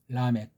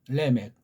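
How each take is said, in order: First: The first syllable has an 'a' vowel. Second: The first syllable has an 'e' vowel. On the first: The speaker calls it wrong. "라멕은 틀린 거예요" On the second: The speaker calls it right. "레, 메, 크 이렇게 돼야 돼요"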